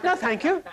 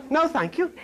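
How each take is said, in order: First: Put-on a higher, prim British accent; clipped British politeness, played up. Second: A light British accent, mimicking Eve's reply; mock British accent. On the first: Preacher repeats Eve's reply in a mock British accent. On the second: Preacher imitating Eve's British accent to the congregation. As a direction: say it like a polite Englishwoman. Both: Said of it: "You hear that British accent?".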